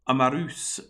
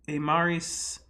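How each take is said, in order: First: The second vowel is an 'oo'-like sound. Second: The second vowel is an 'ee'-like sound. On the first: The speaker calls it right. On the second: The speaker calls it wrong.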